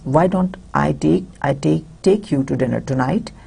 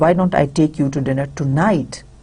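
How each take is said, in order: First: The word take carries the main stress. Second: The word tonight carries the main stress. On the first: The listener need not go alone. "You're emphasizing here on take" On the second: It should be this night, not another. "If you're emphasizing more on tonight"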